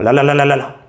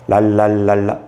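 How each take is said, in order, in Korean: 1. 음절을 빠른 속도로 말합니다. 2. 음절을 느린 속도로 말합니다. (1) "빨라집니다" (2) "아닙니다"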